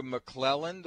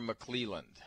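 First: McClelland said muh-KLEL-und; short "e" as in "bell" in McClelland; name with short E. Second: McClelland said muh-KLEE-lund; long "ee" as in "feel" in McClelland; name with long EE. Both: Shown as a demonstration. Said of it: "find out if I'm pronouncing that right".

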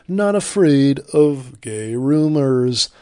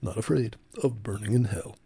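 First: Loud, slow, booming put-on slogan voice; Ron Reagan Junior. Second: Softer, subdued put-on slogan voice; toned-down Ron Reagan Junior. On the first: Host mocking an atheism ad tagline, loud slow impression. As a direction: hammer the tagline out slowly and loudly. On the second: Host showing the toned-down version of the ad, soft subdued impression. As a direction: deliver the tagline quietly, toned down. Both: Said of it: "that was the toned down one he's doing now".

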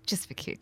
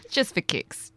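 First: "Just for kicks" whispered breathily. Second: Said in the usual way. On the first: Shown as a demonstration.

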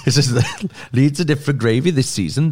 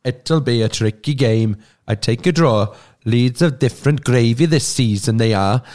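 First: Laughing through the Welsh line; cracking up while repeating it. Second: Put-on slow, sing-song Welsh accent. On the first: Real, not acted. Rereads quote while laughing. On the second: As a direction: read it like a Welsh fan. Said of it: "Can you read it in a Welsh accent".

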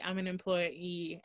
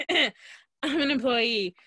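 First: Said in the usual way. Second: Throat-cleared, louder "I'm an employee"; emphatic restatement. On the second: Retold or imitated. Customer corrects the cashier, emphatic louder "I'm an employee".

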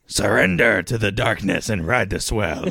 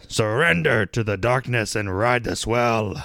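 First: Pirate voice. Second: Ad read. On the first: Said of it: "I felt like I had to go a little pirate there". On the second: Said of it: "I had to go a little pirate there". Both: Acted.

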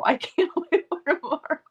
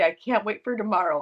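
First: Higher, broken by laughter; laughing repeat. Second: Said in the usual way. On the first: Retold or imitated. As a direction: let the laugh break the line.

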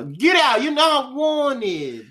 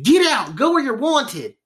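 First: High shout, last words drawn out slowly; mock angry yell without country accent. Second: High, hammed-up country-accent yell. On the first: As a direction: redo the eviction as a hammed-up holler. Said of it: "they didn't say it with a country accent". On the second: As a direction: order them out in a mock country accent. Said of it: "didn't say it with a country accent".

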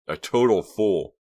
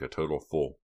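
First: "total fool" slow, higher and louder; emphatic exclamation. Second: Said in the usual way. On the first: A narrator's reading. Reva leaves Hank standing there, "total fool" exclaimed emphatically. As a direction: punch "total fool", drawing it out.

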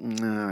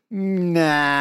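First: Low, soft, relenting "Nah"; forgiving nah. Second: Higher, drawn-out dismissive "Nah"; unconvinced nah. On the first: Australia excusing Cameron Bancroft, forgiving. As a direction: say "Nah" quietly, waving the offence away. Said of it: "everyone went". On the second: Australia rejecting David Warner's apology, unconvinced. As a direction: stretch "Nah" out in open disbelief. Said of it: "not buying it". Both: Retold or imitated.

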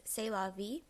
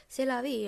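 First: Said in the usual way. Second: C'est la vie with a put-on French accent, louder; mock French accent. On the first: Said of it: "the French phrase". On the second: Shown as a demonstration. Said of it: "that accent I just did".

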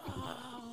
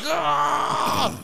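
First: Faint, breathy far-off scream; distant scream. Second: Loud, high mock scream; imitated scream. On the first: Retold or imitated. Brother's screams heard from the TV room, faint distant scream. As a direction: scream imitated very softly, as from far away. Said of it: "like, far away". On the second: Brother screaming behind the bathroom door, loud imitated scream. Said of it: "the harder I hear screams".

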